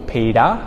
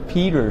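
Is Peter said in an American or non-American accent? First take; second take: non-American; American. First: It is said without an American accent. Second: It is said with an American accent. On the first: "my name is Peter" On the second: "Americans would say Peter"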